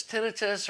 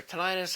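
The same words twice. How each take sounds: First: "tinnitus" as TIN-ih-tus; first-syllable stress pronunciation. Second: "tinnitus" as tih-NIGH-tus; second-syllable stress pronunciation. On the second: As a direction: stress the middle of "tinnitus", rhyming it with "night". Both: Shown as a demonstration. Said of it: "however you wanna pronounce it".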